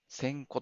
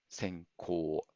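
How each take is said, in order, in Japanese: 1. 語末の母音は短いです。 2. 語末の母音は長く伸ばします。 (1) "短い発音になっていく" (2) "発音もしっかり"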